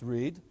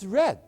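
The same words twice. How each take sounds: First: The vowel is long, like in reed. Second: The vowel is short, like in red. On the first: It is the present tense of the verb. "R E E D is pronounced read. R E A D is pronounced read" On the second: It is the past tense of the verb. "What's the past tense of the verb read? It's read. And how is it spelled? R E D?"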